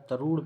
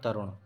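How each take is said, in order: First: The vowel after r is long. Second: The vowel after r is short. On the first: The speaker calls it wrong. "तरूण पढ़ेंगे इसको" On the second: The speaker calls it right. "इसे पढ़ेंगे तरुण"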